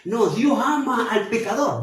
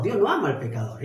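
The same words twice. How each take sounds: First: Quoting the wrong view a bit higher, mock-confident; a hint of the opponent's claim; mistaken theologians. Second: Quick, firm denial with "no" pressed; brisk emphatic rebuttal; firm correction. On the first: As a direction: voice the confused theologian lightly. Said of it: "algunos teólogos se confunden y dicen". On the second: Real, not acted. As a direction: set the record straight fast on "Dios no ama".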